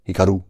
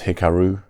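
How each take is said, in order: First: The name is said with a Japanese accent. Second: The name is said with an English accent. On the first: "if I was just attempting a Japanese accent, it would be Hikaru" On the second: "I guess it's Hikaru if your native language is English"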